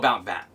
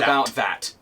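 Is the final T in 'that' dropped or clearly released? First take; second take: dropped; released. First: The final T of 'that' is dropped. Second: The final T of 'that' is fully pronounced. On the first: The speaker calls it right. "People go about that, almost with a D noise, or almost like we don't even say the T" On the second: The speaker calls it wrong. "no one says"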